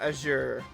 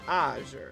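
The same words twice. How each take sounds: First: The stress is on the second syllable. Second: The stress is on the first syllable. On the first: The speaker calls it wrong. "Not azure" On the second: The speaker calls it right. "I think the emphasis is on the first syllable"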